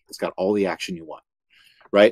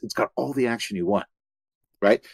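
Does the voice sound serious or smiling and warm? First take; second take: serious; smiling and warm. First: The voice is serious and straightforward. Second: The voice is smiling, warm and open. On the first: The show is a drama. "I'm very serious and straightforward" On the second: The show is a comedy. "I'm smiling and I'm warm and open"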